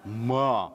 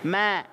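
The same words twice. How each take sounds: First: The ma is said thick and heavy. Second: The ma is said thin and light. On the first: The speaker calls it wrong. "bukan ma" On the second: The speaker calls it right. "Ma tipis"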